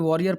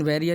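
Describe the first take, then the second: First: The first vowel sounds like 'aw'. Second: The first vowel sounds like 'e'. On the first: The speaker calls it wrong. "बहुत से लोग इसे वॉरियर पढ़ देते हैं" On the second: The speaker calls it right. "लेकिन वेरियर ही है"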